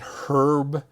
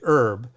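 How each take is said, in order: First: The word starts with an H sound. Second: The word starts without an H sound. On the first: "The Brits pronounce the H" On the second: "we do not"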